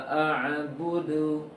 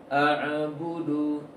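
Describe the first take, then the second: Both takes have the same delivery.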